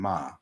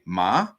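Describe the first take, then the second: First: The pitch falls on the word. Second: The pitch rises on the word. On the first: "the drop means another" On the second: "The the rise means one thing"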